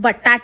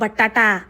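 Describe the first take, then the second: First: The word ends without its final vowel. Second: The word ends with its final vowel. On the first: The speaker calls it wrong. "अगं बटाट नाही ग" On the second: The speaker calls it right.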